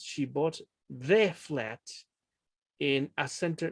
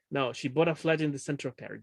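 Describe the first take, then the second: First: Slow wrong take, leaning on "the" flat and "a" center; wrong version. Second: Said in the usual way. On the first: Shown as a demonstration. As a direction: say it slowly as the mistake to avoid. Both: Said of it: "No, never".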